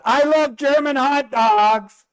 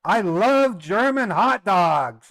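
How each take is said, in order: First: Much higher, louder, slow put-on voice; put-on teasing voice. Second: Slow, mock-proud declaration, a bit louder; teasing line for the camera. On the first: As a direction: needle the mother-in-law with a silly voice. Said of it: "I said". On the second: Real, not acted. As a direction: tease the German family on tape. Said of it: "and I said on the camcorder".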